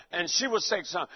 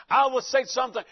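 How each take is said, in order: First: Lower, subdued answering turn; humble reply. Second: Firm turn with "I" lifted; asserting himself. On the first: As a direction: let "she would say something" drop away. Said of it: "my wife was real humble". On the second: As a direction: stress on I, then carry through. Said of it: "my voice got more deeper". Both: Retold or imitated.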